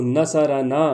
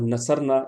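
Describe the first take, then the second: First: نصرنا drawn out as na-sa-ra-naa; voweled ر. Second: نصرنا as na-sar-na, ر without vowel; jazm on ر. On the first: Teacher contrasting zabar with jazm, نصرنا with voweled ر. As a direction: give نصرنا an open "a" after ر. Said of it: "اس طرح سے". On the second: Teacher contrasting jazm with zabar, نصرنا with vowelless ر. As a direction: close نصرنا's middle syllable on ر. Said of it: "جزم اور زبر". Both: Shown as a demonstration.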